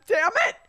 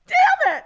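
First: Tearful, higher "Damn it"; a frustrated sob-curse; crying curse. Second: "Damn it" wailed very high and loud; wailing curse. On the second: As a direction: sobs breaking through the curse. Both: Real, not acted. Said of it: "do I have to cry".

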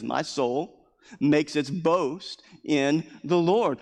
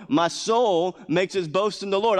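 First: Slow, deliberate reading. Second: "Lord" lifted higher and louder the second time; second, rising emphatic take; higher and louder repeat. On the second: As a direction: repeat it with more lift on "Lord". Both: Shown as a demonstration.

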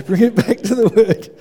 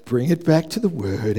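First: Louder, higher firm call to himself; preacher scolding himself back to the sermon; self-correcting command. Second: Said in the usual way. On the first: Real, not acted. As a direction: bark it at yourself to get back on track.

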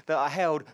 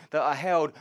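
The two takes are said the same way.

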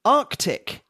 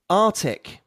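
First: Arctic with a clear k before the t. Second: Arctic without the first c, ar-tic; American artic. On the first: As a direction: sound the c in Arctic, ark-tic. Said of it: "the first version is correct". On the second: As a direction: drop the k in Arctic. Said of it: "the second version is American". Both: Shown as a demonstration.

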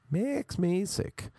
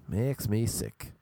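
First: High, drawn-out mock disgust; exaggerated disgust. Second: Slow, disgusted complaint at usual pitch. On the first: Ranting about bars cashing in on Irish names, exaggerated disgust. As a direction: stretch it out slowly, pitched right up. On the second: Ranting about bars cashing in on Irish names, disgusted. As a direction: draw the words out in disgust. Disgusted rant, said then exaggerated. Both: Real, not acted.

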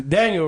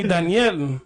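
First: Said in the usual way. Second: "Daniel" with a y-glide into a clear "ell"; imitated Spanish "Daniel", ending in a full "yel"; Spanish pronunciation. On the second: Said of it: "bad habit of calling me".

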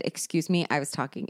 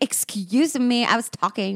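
First: Softer, lower quoted put-down; quiet retelling. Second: Performance-art retort. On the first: Retold or imitated. Recalling telling her friend off, softly and lower. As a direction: murmur the retort back as a memory. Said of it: "The only person I have ever said". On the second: Acted. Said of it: "do some, like, performance art here".

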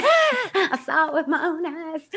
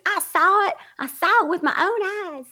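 First: High, slow Southern drawl breaking into laughter; Southern accent, laughing. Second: Mock a diehard Southern believer; Southern believer accent. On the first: Retold or imitated. Retelling the caller bit, laughing Southern accent. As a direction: ham up the Southern witness through giggles. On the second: Caller mocking a diehard believer, Southern accent. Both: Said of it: "with that accent".

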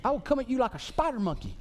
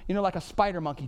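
First: Fast, higher, brash put-on movie voice; cocky action-hero quote; movie impression. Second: Said in the usual way. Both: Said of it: "Who says".

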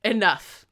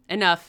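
First: A loud commanding "Enough" that falls; loud declaration. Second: A sudden loud "Enough"; loud declaration. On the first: Rochester halts the wedding, loud command. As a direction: cut everyone off again. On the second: Rochester halts the wedding, loud announcement. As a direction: cut everyone off. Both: Acted. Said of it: "announced it".

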